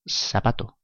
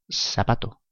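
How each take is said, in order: First: The z sounds like an s. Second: The same.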